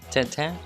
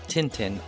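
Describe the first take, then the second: First: It is said with a French pronunciation. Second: It is said with an English pronunciation.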